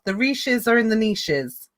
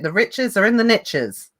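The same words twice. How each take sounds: First: It is said in a put-on posh accent. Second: It is said in the speaker's plain accent.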